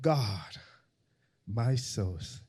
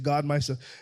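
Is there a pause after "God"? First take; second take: yes; no. First: There is a clear pause after God. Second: It runs on without a pause after God.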